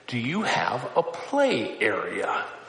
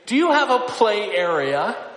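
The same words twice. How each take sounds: First: It is said in a very quiet voice. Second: It is said somewhat louder, at moderate volume. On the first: The request is made timidly at first. "She would start in a very quiet voice" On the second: The request is repeated after being ignored. "she would lift up her voice a little louder"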